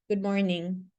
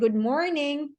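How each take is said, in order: First: The greeting sounds flat, dull and unenthusiastic. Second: The greeting sounds bright, cheerful and upbeat. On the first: The speaker feels nothing good about the morning. The speaker calls it wrong. "there's no good in that tone" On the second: The speaker is glad to greet the listener. The speaker calls it right. "definitely it should be upbeat"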